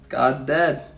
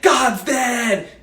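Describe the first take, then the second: First: It is said in a sad, mournful tone. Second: It is said in a glad, celebratory tone. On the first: The loss of belief is a painful loss. The speaker calls it right. "And it sucks" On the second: The loss of belief is something to cheer. The speaker calls it wrong. "Nietzsche didn't say it like that"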